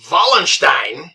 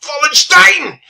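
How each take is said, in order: First: Said in the usual way. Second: High, loud German-style Wallenstein; German pronunciation. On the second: Shown as a demonstration. Repeats name in put-on voice.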